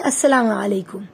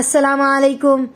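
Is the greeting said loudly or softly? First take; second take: soft; loud. First: The greeting is said softly but audibly. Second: The greeting is said very loudly. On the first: Sleepers stay asleep while anyone awake can hear. The speaker calls it right. "धीरे आवाज में... आवाज निकले" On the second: It would wake up people who are sleeping. The speaker calls it wrong. "खूब तेज से सलाम नहीं करना"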